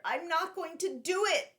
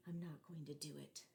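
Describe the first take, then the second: First: High, louder blurted resolve. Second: Low, much softer muttered to himself; quiet self-talk. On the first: Boy blurting his resolve aloud while racing Antonio. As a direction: burst out with it. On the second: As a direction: say it under your breath. Boy telling himself quietly. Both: Acted.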